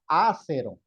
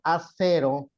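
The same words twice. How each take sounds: First: The stress is on the first syllable. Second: The stress is on the second syllable. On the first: The speaker calls it wrong. "tendría que tener un acento acá porque sería una esdrújula" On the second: The speaker calls it right. "está bien"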